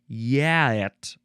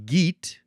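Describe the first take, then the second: First: The word begins with a Y sound. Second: The word begins with a hard G sound. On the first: "the Old English pronunciation ... it has a Y sound" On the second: "I'm going to use the first pronunciation, which is geet"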